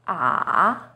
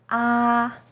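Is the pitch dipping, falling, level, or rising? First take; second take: dipping; level. First: The pitch starts low, dips, then rises. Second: The pitch stays high and level. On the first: "Third tone, is even lower. It first dips down, then rises" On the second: "First tone, is high and steady"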